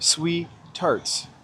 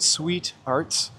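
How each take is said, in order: First: The t sound starts the second word. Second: The t sound ends the first word.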